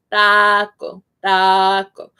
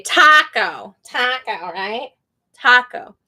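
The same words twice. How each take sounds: First: "taco" with open Spanish A, drawn out. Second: "taco" with a wide English A. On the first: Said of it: "But in Spanish". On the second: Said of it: "In English, we say". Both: Shown as a demonstration.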